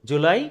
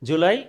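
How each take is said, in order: No difference in how they are said.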